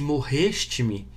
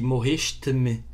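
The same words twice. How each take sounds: First: It is said in a Brazilian Portuguese accent. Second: It is said in a European Portuguese accent.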